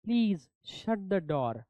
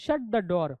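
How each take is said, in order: First: Very slow, door said "doh" with no r sound; silent r in door. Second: Said in the usual way. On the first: Shown as a demonstration. Teacher models door without the r, very slowly. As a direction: stretch out door, drop the final r. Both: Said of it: "not door, आर चा pronunciation silent है".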